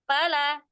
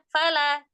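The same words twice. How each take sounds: No difference in how they are said.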